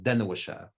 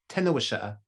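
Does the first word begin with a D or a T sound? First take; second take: D; T. First: The first word begins with a D sound. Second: The first word begins with a T sound. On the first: This is the more usual form. "instead of Dena Washa'a" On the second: This is a western regional variant. "he says Tena, Tena, Tena Washa'a"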